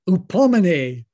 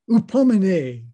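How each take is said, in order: The two takes are said the same way.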